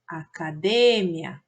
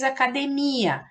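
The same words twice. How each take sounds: First: It carries the Spanish stress placement. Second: It carries the Portuguese stress placement. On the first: "no espanhol" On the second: "no português a gente diz"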